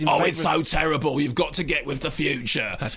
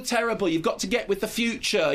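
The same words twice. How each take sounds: First: It is said in a put-on Cockney accent. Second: It is said in an exaggerated camp voice. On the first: "So camp or Cockney" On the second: "Why does that have to be said in a camp voice?"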